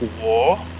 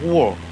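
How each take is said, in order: First: The pitch rises across the word. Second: The pitch falls across the word. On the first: "a rising tone's like whoa, like you kind of rise your voice up as you say it" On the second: "the falling is like whoa"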